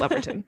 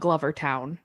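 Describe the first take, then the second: First: The last syllable is a reduced 'ton'. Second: The last syllable is a full 'town'. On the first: The speaker calls it right. "probably Gloverton" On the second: The speaker calls it wrong. "I'm sure it's not Glover Town"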